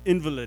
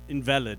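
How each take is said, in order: First: The stress is on the first syllable. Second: The stress is on the second syllable. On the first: "that's spelt the same, but it's invalid" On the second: Not valid. "It's not invalid, okay? Nobody's invalid"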